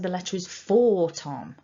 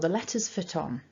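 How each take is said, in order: First: The word 'for' is full and stressed. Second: The word 'for' is reduced and unstressed. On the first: It corrects a misunderstanding about who the letter is for. "I would emphasize using the strong form" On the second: It is just ordinary grammar with no special focus. "with the weak form"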